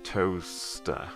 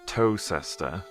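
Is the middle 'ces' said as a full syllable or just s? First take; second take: just s; full syllable. First: The middle 'ces' shrinks to a single s sound. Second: The middle 'ces' is said as a full syllable. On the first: The speaker calls it right. "contracts into one S sound" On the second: The speaker calls it wrong. "instead of"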